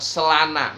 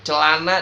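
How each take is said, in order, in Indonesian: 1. Kata ini diawali dengan bunyi 's'. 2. Kata ini diawali dengan bunyi 'ch'.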